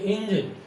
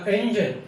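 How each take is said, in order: First: इंजन said as injan with i; "इंजन" started with a short i; Indian style engine. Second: इंजन said with an open e at the start; "इंजन" begun with e, not i; English engine. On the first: Teacher imitates the common Indian injan. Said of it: "हम बोल देते हैं इंजन". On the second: Teacher models English engine starting with e. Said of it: "जैसे हमने बोला इंजन". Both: Shown as a demonstration.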